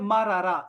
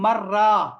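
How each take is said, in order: First: The two r sounds are separated by a vowel. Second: The two r sounds merge into one doubled r. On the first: "ये दूसरा लफ्ज़ है मरारा" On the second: "दोनों को मिला दो यार, तो कहते हैं मर्रा"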